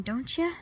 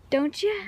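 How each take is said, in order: First: Said in the usual way. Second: "Don't you?" higher and louder, rising on "you"; playful insistent "Don't you?"; teasing repeat. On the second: Shown as a demonstration. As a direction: push the tag question at them.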